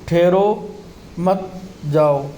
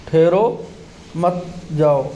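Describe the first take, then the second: No difference in how they are said.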